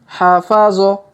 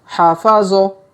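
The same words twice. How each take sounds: Both takes have the same delivery.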